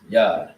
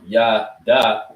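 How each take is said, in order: First: The final consonant is clipped without a vowel. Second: The final syllable is said fully with a vowel. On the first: The speaker calls it right. "it becomes pronounced shorter as opposed to being fully pronounced" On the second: The speaker calls it wrong. "it doesn't become Yah, da"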